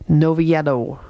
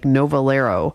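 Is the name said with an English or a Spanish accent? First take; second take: Spanish; English. First: The name is said with a Spanish accent. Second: The name is said with an English accent. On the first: "if you have a Spanish accent" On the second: "If you say it in an anglicized version"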